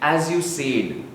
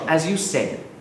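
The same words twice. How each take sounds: First: The word said is stretched out long. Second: The word said is kept very short. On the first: The speaker calls it wrong. "You tend to stretch it" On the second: The speaker calls it right. "keep it very short"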